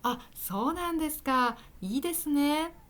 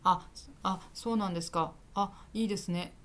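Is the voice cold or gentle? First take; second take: gentle; cold. First: It is said softly, with warmth. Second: It is said flatly, without warmth.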